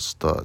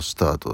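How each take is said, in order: First: The final t sound is cut off. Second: The final t sound is fully pronounced. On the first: "スターっていう感じ" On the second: "スタートだったら"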